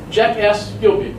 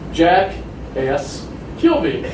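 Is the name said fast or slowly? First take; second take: fast; slowly. First: The name is said quickly, running together. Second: The name is said slowly, parts kept apart. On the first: It sounds like an insult. The speaker calls it wrong. "speak fast like the others" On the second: It is heard as the proper name. The speaker calls it right. "No jackass"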